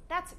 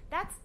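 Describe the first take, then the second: No difference in how they are said.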